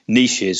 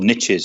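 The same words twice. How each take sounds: First: The word is said in a non-American way. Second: The word is said in an American way.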